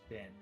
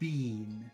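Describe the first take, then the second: First: The vowel is short, like bin. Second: The vowel is long, like bean. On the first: This is the usual American way. "That's very short, bin" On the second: This is the usual Canadian way. "They make it very long"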